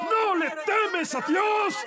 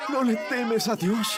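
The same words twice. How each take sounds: First: High, drawn-out cry; crying out in rebuke. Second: Slow, drawn-out question at normal pitch; laboured question. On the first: Thief rebuking the other thief, high cry. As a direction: throw the question out high and long. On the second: Thief addressing the other thief, slow question. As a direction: draw the question out slowly. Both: Acted. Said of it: "le dije a él".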